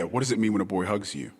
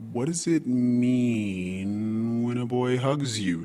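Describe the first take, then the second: First: The question is said at a normal, even pace. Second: The question is said slowly and drawn out.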